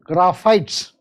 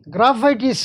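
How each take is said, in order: First: The word ends with an 'ites' sound. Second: The word ends with an 'itis' sound. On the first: The speaker calls it right. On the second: The speaker calls it wrong.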